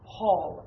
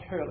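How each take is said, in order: First: The vowel sounds like the one in 'hall'. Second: The vowel sounds like the one in 'her'. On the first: The speaker calls it right. "It's actually Hall" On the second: The speaker calls it wrong. "it doesn't have an umlaut, so it's not Hurl"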